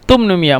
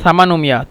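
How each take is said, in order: First: The word begins with a t sound. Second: The word begins with an s sound. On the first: This is how Egyptians say it. "এই জন্য তুমনুমিয়া" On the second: This is the original standard form. "মূলত সামানুমিয়া"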